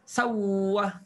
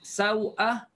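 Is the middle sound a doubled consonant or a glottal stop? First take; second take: doubled consonant; glottal stop. First: A doubled w sound replaces the glottal stop. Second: A glottal stop is heard in the middle. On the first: "tukarkan hamzah jadi waw dan masuk waw pertama dalam waw kedua" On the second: "tukarkan hamzah jadi waw dan masuk waw pertama dalam waw kedua"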